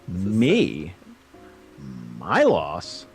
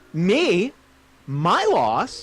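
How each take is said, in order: First: It is lower in pitch and less frustrated. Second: It is higher in pitch and more frustrated.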